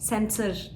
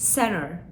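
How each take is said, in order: First: The t after the n is clearly pronounced. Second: The t after the n is dropped. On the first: The speaker calls it wrong. "Center demiyorum" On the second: The speaker calls it right. "center şeklinde söylediğimiz zaman doğru telaffuz etmiş oluyoruz"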